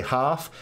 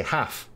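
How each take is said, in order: First: Half with a long ah, as in father; half said hahf, broad southern vowel. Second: Half with a flat a, as in cat; half said haff, American short vowel. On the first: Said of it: "sometimes I say half". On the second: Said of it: "Americans say half". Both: Shown as a demonstration.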